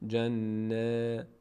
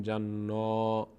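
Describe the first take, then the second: First: جن with held n, then a long thin æ; unrounded front vowel drawn out after جن; light vowel. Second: Full-mouthed نا at the end of جنا; slow, dark long آ in جنا; wrongly heavy vowel. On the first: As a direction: mouth spread sideways on the release of جن. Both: Shown as a demonstration.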